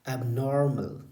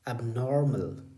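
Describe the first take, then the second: The two takes are said the same way.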